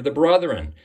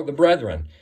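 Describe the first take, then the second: First: "brethren" with an UH in the first syllable, like "brutheren"; mispronounced. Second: "brethren" with a short E in the first syllable; corrected pronunciation. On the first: Preacher naming Satan the accuser, "brethren" slipping towards "brotheren". Slip, then corrected in repeat. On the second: Preacher correcting himself, "brethren" said crisply as BRETH-ren. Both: Real, not acted.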